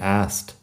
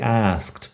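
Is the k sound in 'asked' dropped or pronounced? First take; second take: dropped; pronounced. First: The k sound is dropped, shortening the word. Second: The k sound before the t is clearly pronounced. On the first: This is the shortened form used in conversation. "como que la K no está ahí" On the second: This is the official, careful pronunciation. "Técnicamente es así"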